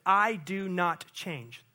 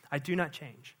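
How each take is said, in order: First: Slow, each word weighed; slow emphatic. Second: Softer, lower repeat; quiet echo. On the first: Preacher quoting God to the church, slow and weighty. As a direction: lay it down like a vow. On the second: Preacher repeating God's words to the church, hushed. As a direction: let it settle in a hush. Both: Acted.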